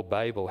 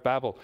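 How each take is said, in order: First: "Babel" with a long a, as BAY-bel; long-a pronunciation. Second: "Babel" with a short a, like "babble"; short-a pronunciation. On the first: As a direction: say "Babel" with first syllable like "bay". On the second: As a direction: say "Babel" to rhyme with "rabble". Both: Shown as a demonstration. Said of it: "however you wish to pronounce it".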